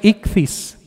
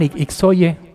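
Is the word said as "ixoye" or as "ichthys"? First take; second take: ichthys; ixoye. First: It is sounded out as "ichthys". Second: It is sounded out as "ixoye". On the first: The speaker calls it right. "pero se pronuncia Ichthys" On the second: The speaker calls it wrong. "que le llaman Ixoye"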